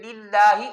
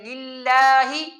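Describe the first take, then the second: First: The lips stay relaxed and not spread. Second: The lips are pulled wide to the sides. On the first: The speaker calls it right. "आराम से" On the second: The speaker calls it wrong. "होंठों को साइडों से दूर करना ठीक नहीं है"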